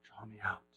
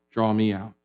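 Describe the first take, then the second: First: Breathy whispered exhale. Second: Soft exhaled prayer; breath prayer. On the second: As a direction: let it out on the breath. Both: Shown as a demonstration.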